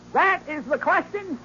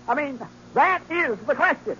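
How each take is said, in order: First: Slow, lofty declaiming of "That is the question"; hammy orator. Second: Said in the usual way. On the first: Acted. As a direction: stretch out "question" like a stage tragedian. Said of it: "orating like Demosthenes". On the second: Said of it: "while I read this part".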